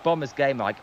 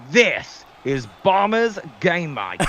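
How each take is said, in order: First: Said in the usual way. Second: Slow, hammed-up American announcer accent; jokey American-accented sign-off, drawn out; put-on American accent. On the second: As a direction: stretch it out in a mock American accent. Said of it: "I didn't wanna do the American accent".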